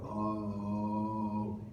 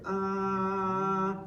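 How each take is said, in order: First: The sound is pitched low and deep. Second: The sound is pitched high. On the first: "go lower" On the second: "If you go higher"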